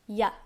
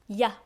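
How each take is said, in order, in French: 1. Elle est réduite à une seule syllabe courte. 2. Elle est réduite à une seule syllabe courte.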